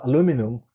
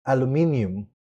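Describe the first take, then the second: First: "aluminum" in four syllables, stressed on LOO; American aluminum. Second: "aluminium" in five syllables, stressed on MIN; British-style aluminium. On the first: Guest shows what Americans say, "aluminum" stressed on LOO. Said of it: "in America, we say". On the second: Guest imitates British speakers, "aluminium" with the extra "ee" syllable. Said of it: "I've heard British people saying". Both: Shown as a demonstration.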